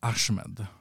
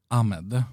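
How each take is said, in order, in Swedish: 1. Namnet uttalas med ett 'sh'-ljud. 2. Namnet uttalas utan ett 'sh'-ljud. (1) "i Sverige så brukar man dra till med det här she-ljudet" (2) "Men jag brukar säga Vladimir Ahmed"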